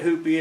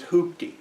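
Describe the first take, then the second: First: No t sound comes before the final syllable. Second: A t sound comes before the final syllable. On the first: This is the family's own way to say it. "he called it a hoopy" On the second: This is the standard way to say it. "the proper pronunciation is hoopty"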